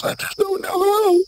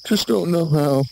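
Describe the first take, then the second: First: Very high shouted wail; comic wail. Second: Said in the usual way. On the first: Acted. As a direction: wail it in a strained falsetto. Comic wail over boaters.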